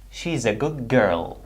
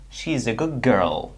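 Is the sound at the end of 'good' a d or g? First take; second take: g; g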